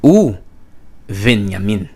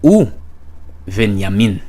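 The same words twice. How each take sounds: First: It begins 'u' with a 'v' sound. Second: It begins 'u' with a 'v' sound.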